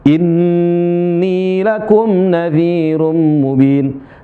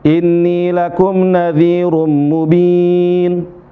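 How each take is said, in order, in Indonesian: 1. Bunyi n ganda pada inni dibaca panjang. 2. Bunyi n ganda pada inni dibaca pendek. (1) "nun bertasydid ditahan dua harokat" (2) "Nggak tahan"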